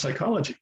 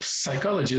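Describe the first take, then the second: First: Said in the usual way. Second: Psychology with the silent P wrongly sounded; psychology mispronounced with an audible P at the start; wrong pronunciation. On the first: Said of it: "it's pronounced psychology". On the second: Shown as a demonstration. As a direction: say psychology as "puh-sychology", sounding the P. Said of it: "it's not pronounced psychology".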